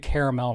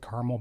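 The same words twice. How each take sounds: First: The word is said in a fancy-sounding way. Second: The word is said in a plain, everyday way. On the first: This is used when the speaker is feeling fancy. "I'll do caramel when I'm thinking thinking fancy" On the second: This is the speaker's usual way of saying it. "I pronounce it caramel"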